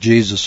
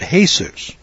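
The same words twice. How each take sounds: First: It is said with an English pronunciation. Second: It is said with a Spanish pronunciation.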